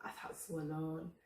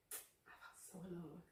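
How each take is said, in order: First: Said in the usual way. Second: Much softer, almost breathed; hushed echo. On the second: Real, not acted. Telling viewers her loneliness, in a hushed echo. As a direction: let the words fall to a near whisper. Repeats the line twice.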